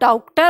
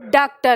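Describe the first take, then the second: First: The first vowel is an au sound. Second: The first vowel is a long open aa. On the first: "औ की मात्रा लगाकर देखी, तो ये और भी बिगड़ गया" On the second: "हमने इसको आ के साथ लिखा"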